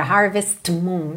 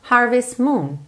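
First: "harvest moon" with a released T breaking the words; broken by T. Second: "harvest moon" linked with the T dropped; silent T. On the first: Teacher shows the unwanted break, "harvest moon" with audible T. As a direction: pop the T of "harvest" before "moon". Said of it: "não quero aquela quebra". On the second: Teacher corrects the break, "harvest moon" with no T. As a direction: glide from the S of "harvest" straight into "moon". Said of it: "a gente não pronuncia o T". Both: Shown as a demonstration.

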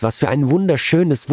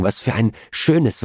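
First: Wunderschönes lifted higher with a falling finish; building emphasis. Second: Said in the usual way. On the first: A narrator's reading. Della to Jim, topping her own words with emphasis on wunderschönes. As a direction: stretch and lift wunderschönes. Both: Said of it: "rief sie laut schluchzend".

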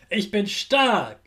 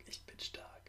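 First: Said in the usual way. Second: Breathy whispered repeat; whispered echo. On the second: Shown as a demonstration. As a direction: whisper it back softly. Repeat-after-me affirmations.

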